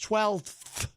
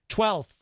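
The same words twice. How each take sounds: First: The f sound is clearly pronounced in the word. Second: The f sound is dropped from the word. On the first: The speaker calls it right. "it's twelfth" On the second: The speaker calls it wrong. "do the L T H and, and leave out the F"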